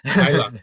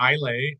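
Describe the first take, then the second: First: The name ends with an 'uh' sound. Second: The name ends with an 'ay' sound. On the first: The speaker calls it right. "the correct pronunciation is Isla" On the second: The speaker calls it wrong. "a lot of people probably say Islay"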